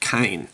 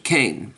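First: The vowel sounds like 'eye' in 'aisle'. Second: The vowel sounds like 'ay' in 'rain'. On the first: This follows the original Hebrew form of the name. "or as some languages would pronounce it" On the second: This is the usual English form of the name. "here in English we usually call this man Cain"

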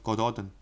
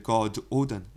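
First: The name is run together as one word. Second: The name is split into two separate parts. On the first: "You say it in one word" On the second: "if you break it down"

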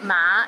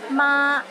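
First: The syllable is said in the rising fifth tone. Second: The syllable is said in the first tone. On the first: It means horse. "ma in the fifth tone means horse" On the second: It means mother. "ma in the first tone means mother"

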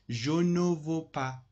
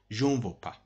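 First: Every syllable is pronounced carefully in full. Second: It is said in a casual, reduced way. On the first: This is the textbook form. "it is correct, completely correct" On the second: This is how native speakers actually say it. "you hear je ne veux pas from francophone"

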